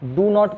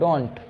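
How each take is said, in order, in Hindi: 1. इसे दो अलग-अलग पूरे शब्दों की तरह बोला जाता है। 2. इसे एक छोटे संकुचित शब्द की तरह बोला जाता है। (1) "डू नॉट को" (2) "आप बोल सकते हैं डोंट"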